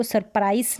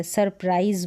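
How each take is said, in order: First: सरप्राइज misread with a hissed s ending; wrong SURPRISE pronunciation. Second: सरप्राइज ending in a buzzing z; correct SURPRISE pronunciation. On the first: Teacher warning learners how not to say it, wrong s-ending सरप्राइज. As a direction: say सरप्राइज as "sur-price". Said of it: "इसको सरप्राइज नहीं बोलेंगे". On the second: Teacher showing learners the z sound, सरप्राइज ending voiced. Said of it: "वो ज करके है". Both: Shown as a demonstration.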